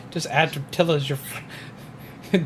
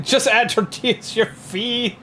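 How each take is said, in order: First: Said in the usual way. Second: High, laughing, slow reread. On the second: Shown as a demonstration. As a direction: laugh through the line.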